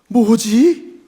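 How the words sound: It sounds amazed and admiring. The speaker is impressed by something. "감탄의 뭐지도 있습니다"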